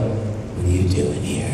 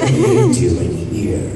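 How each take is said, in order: First: The line is said softly, to someone close by. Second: The line is said sternly, as a confrontation. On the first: The listener is standing close to the speaker. "If I'm talking to this girl" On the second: The listener is not allowed to be there. "if I'm talking to somebody who's not allowed here"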